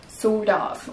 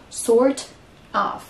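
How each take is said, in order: First: The words are linked with a D-like sound. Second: There is a pause between the words. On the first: The speaker calls it right. "on va entendre un D" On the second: The speaker calls it wrong. "On va pas faire une pause entre les deux"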